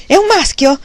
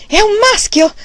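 First: High, loud, elated cry; shouting again. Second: High, loud joyful cry; new father bursting out in triumph; excited shout. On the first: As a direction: call it through the door, overjoyed. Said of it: "gridò un'altra volta". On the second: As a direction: shout it out, stamping with joy. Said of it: "gridò scalpitante". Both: A narrator's reading.

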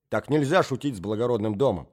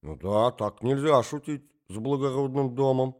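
First: Firm, weighty scolding; stern rebuke. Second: Lightly voiced old prince echoing mindlessly; absent echo. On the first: Acted. Marya Alexandrovna rebukes the prince, stern. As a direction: lay down the law. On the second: Old prince echoes Marya Alexandrovna, absent-minded. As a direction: repeat it vaguely, not thinking. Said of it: "поддакнул князь бессознательно".

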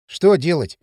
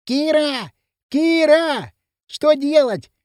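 First: Puzzled question at conversational pitch; baffled query, no shouting. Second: High, urgent calling from afar; high-pitched distant shout for help; desperate cry. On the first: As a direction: ask it without understanding. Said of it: "не понял Кирилл". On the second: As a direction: call out desperately, pitch well up. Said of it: "прилетел отчаянный крик". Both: A narrator's reading.

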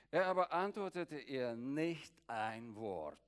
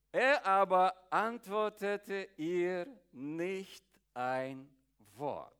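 First: Said in the usual way. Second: "Er aber antwortete ihr nicht ein Wort" slow and loud, falling away on "Wort"; dramatic verse re-reading. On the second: Shown as a demonstration. Preacher re-reading the verse to his congregation, slow and loud.

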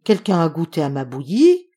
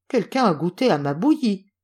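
First: Mama bear's middle voice, loud rising end; medium voice. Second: Papa bear's gruff storybook voice; lightly acted gruff bear; big gruff voice. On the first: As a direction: ask it as an indignant middle-sized bear. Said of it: "de sa moyenne voix". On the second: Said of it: "de sa grosse voix bourrue". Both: A narrator's reading.

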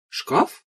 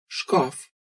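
First: "Шкаф" with a steep rising question tune; "Шкаф" swooping sharply upward at the end; questioning echo. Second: Said in the usual way. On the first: A narrator's reading. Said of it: "переспросила Аня".

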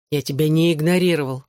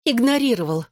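First: Said in the usual way. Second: ИГНОРИРОВАЛ pitched high, then falling; insistent contradiction. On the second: A narrator's reading. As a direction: throw back "игнорировал" in a higher voice. She contradicts his denial. («игнорировал» высоко, с нажимом, возражая)

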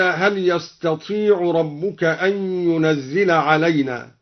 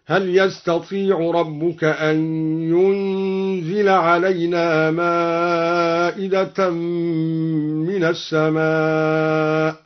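First: Said in the usual way. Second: ينزل as "yunzila", single z after a held n; slow chanted recitation, ينزل without the doubled z; lightened ينزل. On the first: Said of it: "قرأ الدوري بتخفيف ينزل". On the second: Shown as a demonstration. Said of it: "بتخفيف ينزل من أنزل، هكذا".

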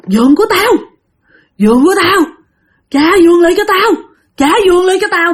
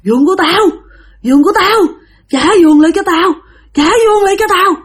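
First: High, loud hoarse ghost demanding its bed; menacing hoarse ghost, raised and loud. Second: Wailing ghost. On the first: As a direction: rasp it out like a corpse wanting its bed back. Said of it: "cái giọng của người này khàn đặc". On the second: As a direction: howl it like a dead woman who wants her bed. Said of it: "Mà cứ gào". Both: Acted.

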